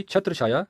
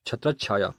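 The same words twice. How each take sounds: First: छत्र छाया with a single "chh" in the middle; wrong pronunciation. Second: छत्र छाया with a doubled "chchh" joining it; correct pronunciation. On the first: Teacher showing the faulty form, छत्र छाया without the doubling. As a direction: say छत्र छाया as "chhatra chhaya". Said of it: "अशुद्ध उच्चारण है". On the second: Teacher building the correct word, छत्र छाया said "chhatrach-chhaya". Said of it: "शुद्ध उच्चारण है". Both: Shown as a demonstration.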